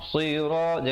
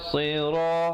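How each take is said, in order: No difference in how they are said.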